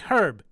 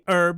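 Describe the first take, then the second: First: The word starts with an h sound. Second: The word starts without an h sound. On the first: This is how we say it. The speaker calls it right. "because there's a fucking H in it" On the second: This is how the other country says it. The speaker calls it wrong. "You say herb"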